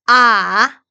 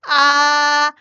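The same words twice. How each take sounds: First: The pitch dips down, then goes up. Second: The pitch stays flat and level. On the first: "삼성은 아래 위로" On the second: "일성 평평하게"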